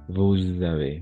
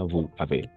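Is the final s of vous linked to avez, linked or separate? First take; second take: linked; separate. First: A z sound links vous to avez. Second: The words are separate, with no z sound. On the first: The speaker calls it right. "N'oubliez pas de faire la liaison" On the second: The speaker calls it wrong. "Pas vous avez"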